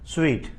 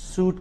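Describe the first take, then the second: First: The word is said like 'sweet'. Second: The word is said like 'suit'. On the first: The speaker calls it right. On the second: The speaker calls it wrong. "సూట్ కాదు"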